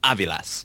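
The name is said with an authentic Spanish accent. The speaker wants to sound authentic and cultured. "If you want to sound like really authentic, you go"

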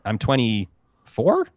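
It rises at the end like a question.

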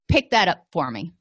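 The tone is snarky and irritable. The speaker calls it wrong.

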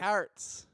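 The word is said in an exaggerated comic accent.

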